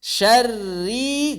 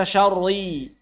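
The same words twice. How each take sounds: First: SYARRI with a thin, light rolled r and clear "a". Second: "syarri" with a heavy, dark r, like "syorri"; wrongly thick r. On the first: Quran teacher shows the correct reading, thin r. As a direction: say "Syarri" with the r light before a long ee. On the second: Teacher shows how not to read it, thick heavy r. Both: Shown as a demonstration. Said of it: "jangan dibaca syarri".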